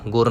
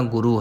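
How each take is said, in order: First: ਗੁਰ as gur, no final vowel; one syllable. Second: ਗੁਰੂ as gu-ru with long final u; two syllables. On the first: Teacher showing the mistake to avoid, ਗੁਰ in one syllable. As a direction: clip off the last vowel, ਗੁਰ. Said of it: "ਨਹੀਂ ਕਹਿਣਾ". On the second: Teacher correcting learners, ਗੁਰੂ with long u. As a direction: sound the last vowel of ਗੁਰੂ fully. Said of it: "ਗੁਰੂ ਹੈ". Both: Shown as a demonstration.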